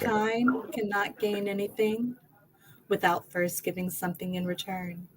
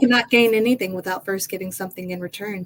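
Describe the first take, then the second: First: It is said slowly. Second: It is said fast.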